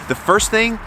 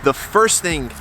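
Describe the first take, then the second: First: "The first thing" restarted with "thing" hit much higher; emphatic restart. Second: Said in the usual way. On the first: Shown as a demonstration. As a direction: lift "thing" high and stress it.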